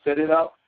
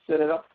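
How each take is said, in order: Both takes have the same delivery.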